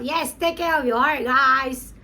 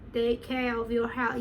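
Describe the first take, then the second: First: Emphatic repeat. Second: Said in the usual way. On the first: Real, not acted. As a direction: urge the fans loudly. Repeats the line excitedly to viewers.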